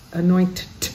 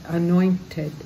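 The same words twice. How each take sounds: First: The ending is a bare t sound. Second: The ending is a full ted syllable. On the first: The speaker calls it wrong. "we can't say anointed. That's not easy to do" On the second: The speaker calls it right. "So there we do say ted"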